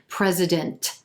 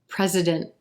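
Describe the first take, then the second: First: The final T is released heavily and strongly. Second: The final T is dropped into a nasal sound. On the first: The speaker calls it wrong. "What you don't want is a really heavy released T" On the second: The speaker calls it right. "That N T at the end of this word is going to sound like mm"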